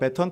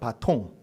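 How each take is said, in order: First: Said bae-ton, with an ae first vowel. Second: Said ba-tong, with a final ng sound. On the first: This follows the English form. "영어식으로 얘기한다면 배턴 터치가 맞습니다" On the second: This follows the French original. "프랑스 말로 막대기를 뜻하는 바통"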